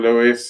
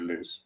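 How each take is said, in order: First: The name is said with an E sound. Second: The name is said without an E sound. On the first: The speaker calls it wrong. "I pronounce it the English way because we see an E" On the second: The speaker calls it right. "That's how I, I pronounce your name properly"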